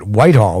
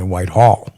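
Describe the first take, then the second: First: The stress is on the first syllable. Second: The stress is on the second syllable. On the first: The speaker calls it wrong. "they don't pronounce it Whitehall; ... not the first" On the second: The speaker calls it right. "they pronounce it Whitehall. ... the emphasis is on the second syllable"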